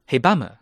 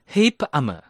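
First: "Hebamme" run together as He-bamme, stress pushed back; mispronounced Hebamme. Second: "Hebamme" as two parts, Heb plus Amme; split Hebamme. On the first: Teacher confesses old mistake, "Hebamme" linked as He-bamme. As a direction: say "Hebamme" as He-BAMME, b joined to amme. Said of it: "真哥从一开始就没念对呀". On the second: Teacher reveals correct "Hebamme", split into Heb and Amme. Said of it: "原来人家是Hebamme". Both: Shown as a demonstration.

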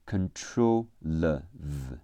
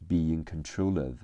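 First: "control了v" slowly, the final l carried into "of" as "le-v"; slow linking demo of "control了v", con-tro-lev; linked l and of. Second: "be in control of" run together, "control of" as "contro-lov"; natural linked "be in control of", no gap before "of"; linked phrase. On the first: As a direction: sound out "control了v" in pieces, joining l to the vowel of "of". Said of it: "control结尾的了和of开头的呃连起来读了呃了". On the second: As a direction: say "be in control of" smoothly, l gliding into "of". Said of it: "听力和口语中control结尾的了和of开头的呃连". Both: Shown as a demonstration.

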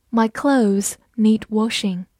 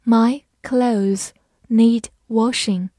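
First: Said in the usual way. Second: Slow, careful reading. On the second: Shown as a demonstration. Teacher modelling the sentence slowly for learners. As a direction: read each word slowly and clearly. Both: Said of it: "好，我们慢慢来读。".

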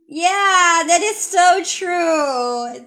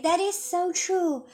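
First: Louder, slow "so true" with a ringing voice; teacher demos wholehearted agreement; emphatic agreement. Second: Said in the usual way. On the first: Shown as a demonstration. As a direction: stretch "so" in strong agreement. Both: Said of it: "你说的太对了".

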